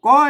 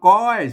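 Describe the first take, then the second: First: The word is said with a rising tone. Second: The word is said on a level mid tone. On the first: "เสียงจี" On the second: "เสียงสมัญ"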